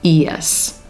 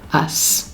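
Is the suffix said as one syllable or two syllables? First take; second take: two syllables; one syllable. First: The suffix is said as two syllables. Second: The suffix is said as one syllable. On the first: "the two-syllable pronunciation" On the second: "a single syllable us"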